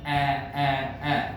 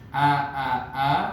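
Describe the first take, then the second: First: The vowel is mixed toward an 'e' sound. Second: The vowel is a full, open 'a' sound. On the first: This is the Arabic way of saying it. The speaker calls it right. "Vokal a-nya dia seperti tercampur dengan bunyi e" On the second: This is the local everyday way of saying it. The speaker calls it wrong. "kalau kita kan a, ba, ta, sa, yang memang betul-betul kental tuh bunyi a"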